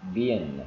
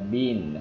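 First: The vowel is short, like in 'bin'. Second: The vowel is long, like in 'bean'. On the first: "trong short i là bin" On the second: "long y là y là bin"

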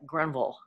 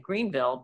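First: It is said the Carolina locals' way. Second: It is said in the speaker's own accent.

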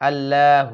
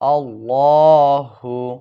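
First: The L sound is light and thin. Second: The L sound is heavy and thick. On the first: The speaker calls it wrong. "এখানে অনেকে এই ভুলটা করে" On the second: The speaker calls it right. "ল শব্দটি মোটা করতে হবে"

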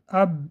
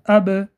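First: The final b is held closed without release. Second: The final b is released with a quick bounce. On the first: The speaker calls it wrong. "اگر لبها را داریم قلقله نمی شود" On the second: The speaker calls it right. "لبها را تیز می کشاییم و این قلقله می شود"

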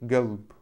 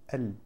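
First: The word starts with a g sound. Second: The word starts with a glottal stop. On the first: This is the Gulf dialect form. "произносят эту букву как уже Г" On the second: This is the Syrian and Egyptian form. "как мягко прямо звучит"

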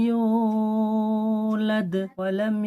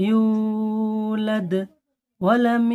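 No difference in how they are said.

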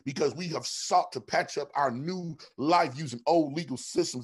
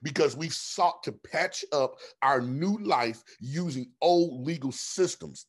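First: The sentence is spoken at a normal pace. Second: The sentence is spoken at a slower pace.

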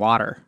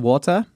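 First: Water is said in an American accent. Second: Water is said in a South African-style accent. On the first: Locals would not understand this version. The speaker calls it wrong. "they wouldn't understand water" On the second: Locals would understand this version. The speaker calls it right. "We would have to start pronouncing it like"

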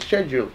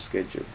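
First: It is said the British way. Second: It is said the American way.

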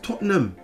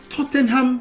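First: Several spelled letters are dropped from the word. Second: Every spelled letter is sounded in the word. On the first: This is how British people say it. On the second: This is how the spelling suggests it. "you taught me wrongly"

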